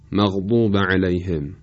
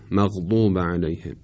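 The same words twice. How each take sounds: First: The daad sound is emphatic and heavy. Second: The daad sound is plain and light. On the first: The speaker calls it right. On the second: The speaker calls it wrong.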